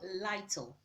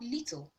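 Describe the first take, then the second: First: The first vowel is long, as in 'light'. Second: The first vowel is short, as in 'it'. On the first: "letter I is going to switch to its long sound" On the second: "L I T L E is not little"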